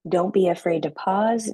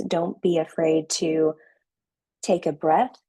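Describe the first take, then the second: First: Said in the usual way. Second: Slow, with a long pause before take a breath. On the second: Shown as a demonstration. Coach showing the class how to slow down, slow with a pause. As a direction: drag it out, then pause and breathe. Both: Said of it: "You need to slow down".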